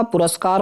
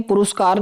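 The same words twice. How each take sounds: First: पुरस्कार with short a, pu-ras-kaar; corrected pronunciation. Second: पुरस्कार with u in 'rus', pu-rus-kaar; wrong pronunciation. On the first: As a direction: say 'ras' clearly in पुरस्कार. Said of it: "होता है". (पुरस्कार में 'रस' साफ़ बोलें) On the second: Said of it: "नहीं होता". (पुरस्कार को 'पुरुस्कार' बोलें) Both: Shown as a demonstration.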